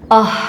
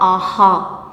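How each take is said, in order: First: It ends in a soft breathed-out puff of air. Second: It ends in a fully voiced extra vowel. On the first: The speaker calls it right. "c'est simplement une façon comme si vous expirez, expulsez de l'air" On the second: The speaker calls it wrong. "ce n'est pas aha"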